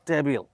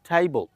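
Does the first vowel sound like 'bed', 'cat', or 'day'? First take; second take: bed; day. First: The first vowel sounds like 'bed'. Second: The first vowel sounds like 'day'. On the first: The speaker calls it wrong. "আমরা বলে থাকি" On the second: The speaker calls it right. "Right উচ্চারণটা"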